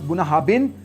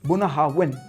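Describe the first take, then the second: First: The third consonant is a 'b' sound. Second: The third consonant is a 'v' sound. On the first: The speaker calls it wrong. "Not बुनाहाबिन" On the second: The speaker calls it right. "It's बुनाहावन"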